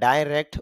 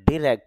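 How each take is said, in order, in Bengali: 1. প্রথম সিলেবলটি 'die' এর মতো শোনায়। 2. প্রথম সিলেবলটি 'dih' এর মতো শোনায়। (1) "ডাইরেক্ট বলতে পারি" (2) "ডিরেক্ট বলতে পারি"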